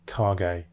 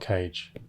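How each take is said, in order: First: The name is pronounced the Japanese way. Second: The name is pronounced like the English word cage. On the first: The speaker calls it right. "That's how you say Japanese words" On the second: The speaker calls it wrong. "not Cage"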